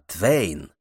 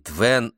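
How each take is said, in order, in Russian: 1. Гласный скользит от 'e' к 'i'. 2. Гласный — простой звук 'e'. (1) "а «Твейн»" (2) "американцы говорят не «Твен»"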